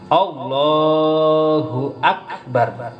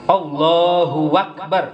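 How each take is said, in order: First: The words join smoothly without a 'w' sound. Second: A 'w' sound links the two words. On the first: The speaker calls it right. "harus nyambung, tapi jangan disambungkan dengan wawu" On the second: The speaker calls it wrong. "enggak boleh. Karena wa-nya tidak berharokat"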